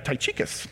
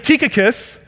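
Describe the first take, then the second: First: The name is read literally from its spelling. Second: The name is said in its standard pronunciation. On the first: The speaker calls it wrong. "I look at that and go" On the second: The speaker calls it right. "It's actually"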